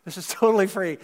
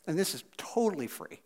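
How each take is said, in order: First: Said in the usual way. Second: Dropped to a soft, offhand aside; quiet aside. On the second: Real, not acted. Pastor slipping a quiet aside to the congregation, softly. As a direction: slip it in quietly, almost to yourself.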